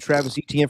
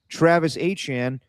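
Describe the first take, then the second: First: The surname is said the older, familiar way. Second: The surname is said like 'uh-chan'. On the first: This is how people have long said the name. The speaker calls it wrong. "I've already called him Travis Etienne for too long now" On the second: This is how the player says his own name. The speaker calls it right. "but I pronounce it Travis Achan"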